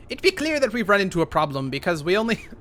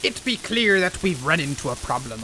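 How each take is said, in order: First: Said in the usual way. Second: Gruff pirate talk, dropping into it. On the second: Pretend. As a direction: growl it like a sea captain. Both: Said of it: "I don't know why I'm talking like a pirate now".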